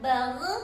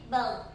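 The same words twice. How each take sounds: First: The final gh bounces with a sharp echo. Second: The final gh flows out smoothly without bouncing. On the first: The speaker calls it wrong. "jangan bagh ... Tidak boleh dipantulkan" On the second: The speaker calls it right. "tapi bagh ... tapi dialirkan"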